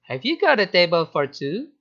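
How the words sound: The pitch rises and falls expressively.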